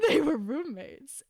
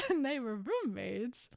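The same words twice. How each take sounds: First: Roommates through a laugh; laughing tease. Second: Softer, dry repeat of roommates; knowing deadpan. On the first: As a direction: say it laughing, winking at the joke. Ironic shipping joke. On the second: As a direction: drop it quietly, as if it proves everything. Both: Real, not acted.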